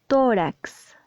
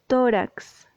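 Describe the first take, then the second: The two takes are said the same way.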